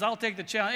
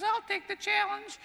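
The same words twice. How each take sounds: First: Said in the usual way. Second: Very high-pitched, squeaky little man. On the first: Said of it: "and everybody says". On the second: Acted. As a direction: squeak it out like a comically tiny old man. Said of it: "That's my impression of, uh, the squeaky mo-, voice".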